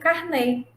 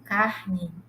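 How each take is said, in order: First: The stress is on the last syllable. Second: The stress is on the first syllable. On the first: "com acento circunflexo no último é" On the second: "sem o acento"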